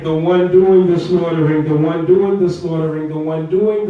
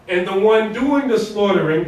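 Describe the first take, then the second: First: Louder, pressing on "doing" in "the one doing the slaughtering"; preacher hammering the point, louder on "doing"; emphatic repeat. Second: Said in the usual way. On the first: Shown as a demonstration. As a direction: drive the repeated phrase home, louder.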